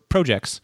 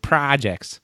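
First: It is said with a Canadian accent. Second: It is said with a Chicago accent. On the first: "as you might say in Toronto" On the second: "I always put a Chicago spin on it too"

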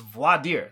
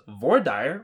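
First: It is said with a French pronunciation. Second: It is said with a Texas pronunciation.

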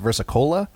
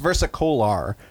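First: The word ends with an 'a' sound. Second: The word ends with a clear 'or' sound. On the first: This is how others actually say it. "but I guess they pronounce versicola" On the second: This follows the written spelling. "It's versicolor"

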